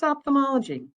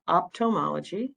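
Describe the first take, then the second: First: "ophthalmology" with TH after the first syllable, pitched high then falling; "ophthalmology" pitched up as the right version, TH clearly sounded; corrected pronunciation. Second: "optomology" with a T in place of TH; "optomology" said as the wrong example, no TH sound; common mispronunciation. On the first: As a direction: correct the learner with "ophthalmology", -thuh-MOL-uh-jee. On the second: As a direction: show the mistaken "optomology", op-tuh-MOL-uh-jee. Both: Shown as a demonstration. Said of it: "It's not optomology".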